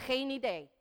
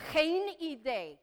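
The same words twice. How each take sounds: First: Said in the usual way. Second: "Geen idee" drawn out slowly; slow, careful "Geen idee" with a long first word; slow teaching model. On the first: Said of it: "Everybody say". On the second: Shown as a demonstration. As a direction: stretch "Geen idee" for learners to repeat. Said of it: "This is a little tougher".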